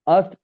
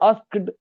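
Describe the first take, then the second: First: The k is dropped and it ends in t. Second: The k is kept and it ends in d. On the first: The speaker calls it right. "क्योंकि ये past में है इसलिए आस्ट हो गया" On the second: The speaker calls it wrong. "आस्क्ड ऐसे उन्होंने मना कर रखा"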